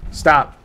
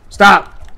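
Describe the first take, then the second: First: Said in the usual way. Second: Loud, forceful repeat; sharper warning. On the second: Real, not acted. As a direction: raise your voice to halt them.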